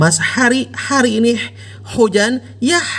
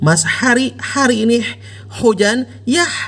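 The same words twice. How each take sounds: First: The H sounds are made in the mid-throat. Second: The H sounds are made in the mid-throat.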